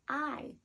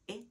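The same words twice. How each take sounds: First: It is the long vowel, as in island. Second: It is the short vowel, as in igloo. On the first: "its long vowel sound" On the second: "its short vowel sound"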